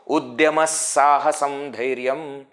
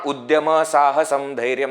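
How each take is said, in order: First: The linking 'sa' sound is fully and clearly pronounced. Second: The linking 'sa' sound is not fully pronounced. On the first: The speaker calls it right. "Very important" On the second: The speaker calls it wrong.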